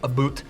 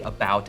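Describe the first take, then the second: First: It is said imitating a Canadian accent. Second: It is said in the speaker's own ordinary accent. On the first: "a Canadian might say about" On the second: "how I might say about"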